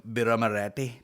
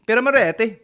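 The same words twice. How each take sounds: First: Said in the usual way. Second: High, loud hammed-up cry; exaggerated, high-pitched outburst; mock exclamation. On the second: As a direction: belt out the brand name with mock gusto. Repeats the beer name as exclamation.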